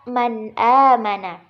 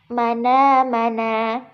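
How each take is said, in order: First: The glottal stop before the vowel is kept. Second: The vowel moves onto the preceding consonant. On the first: "Contohnya terdapat pada kata" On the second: "Jadi bacaannya menjadi"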